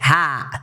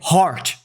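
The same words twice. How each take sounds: First: It is said with an Australian accent. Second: It is said with an American accent.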